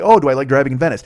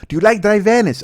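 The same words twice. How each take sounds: First: Said in the usual way. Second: Loud, high-pitched imitation Mexican accent; heavy Mexican accent. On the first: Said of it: "I was like". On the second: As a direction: repeat it louder in a thick mock Mexican accent. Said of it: "she had a really heavy accent".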